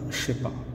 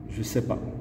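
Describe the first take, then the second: First: The words are slurred together into one chunk. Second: Ne is dropped; the other words stay distinct. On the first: "il y a même une différence au niveau de la prononciation" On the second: "on dit"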